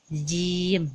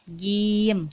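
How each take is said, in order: First: The j sound has an added hiss. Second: The j sound is clean, without hissing. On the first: The speaker calls it wrong. "tidak boleh" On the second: The speaker calls it right. "Jadi dia harus bersih"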